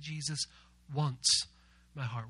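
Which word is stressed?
wants. The word wants is stressed. There is a real desire to have it. "We're going to put the emphasis on the word once"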